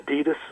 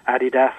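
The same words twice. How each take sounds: First: It is said with an American pronunciation. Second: It is said with a British pronunciation.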